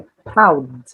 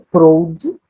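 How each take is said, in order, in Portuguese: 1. A palavra termina limpa no som do d final. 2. Um som de vogal extra é acrescentado depois do d final. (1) "é proud" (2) "Não é proud"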